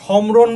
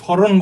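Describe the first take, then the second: First: A full m sound is pronounced after the first consonant. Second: No m sound, only slight nasalization. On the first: The speaker calls it wrong. "তুমি কি কি সমরণ বলো" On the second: The speaker calls it right. "স্মরণ বলবা। ... অনুনাসিক হবে"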